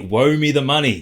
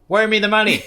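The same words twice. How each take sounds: First: It is said in his normal voice. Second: It is said as a Doctor Evil impression.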